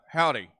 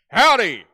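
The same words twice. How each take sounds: First: It is said flatly and quietly. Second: It is said loudly with lively energy.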